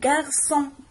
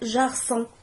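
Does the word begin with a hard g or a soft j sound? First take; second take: hard g; soft j. First: It begins with a hard g sound. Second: It begins with a soft j sound. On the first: The speaker calls it right. "G avec A c'est gars" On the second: The speaker calls it wrong. "On va pas dire garçon"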